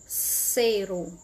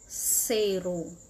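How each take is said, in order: No difference in how they are said.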